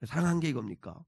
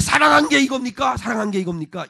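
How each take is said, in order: First: Low, soft sceptical grumble; cynical reaction. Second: Indignant protest, starting high and loud, then easing; snapped retort. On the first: People questioning God's love, in a quiet cynical grumble. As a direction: doubt it under your breath, cynically. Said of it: "냉소적인 반응을 보이는 질문". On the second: People challenging God's love, snapped and indignant. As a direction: throw the question back, stung and cynical. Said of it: "질문을 쏘아붙입니다". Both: Acted.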